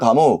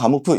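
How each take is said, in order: First: The name ends in an open 'oo' vowel. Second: The name ends in an 'f' sound. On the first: This is the English way of saying it. "영어식 발음으로 하면" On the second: This is the Russian way of saying it. "러시아식 발음으로 하면"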